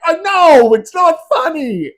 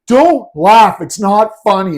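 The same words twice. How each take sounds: First: Very high squeaky giggling reply; high pitched, louder, laughing while conceding; laughing admission. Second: Loud scold fighting a laugh; mock stern, cracking up; higher, much louder, laughing through it. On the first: Retold or imitated. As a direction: give in to the giggles. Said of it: "And he's like". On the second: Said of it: "he started laughing and was like".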